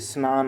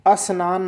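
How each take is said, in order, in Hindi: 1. शब्द सीधे संयुक्त व्यंजन से शुरू होता है। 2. एक अतिरिक्त स्वर ध्वनि शब्द से पहले आती है। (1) "स्नान बोलते हैं" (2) "स्नान नहीं बोलते"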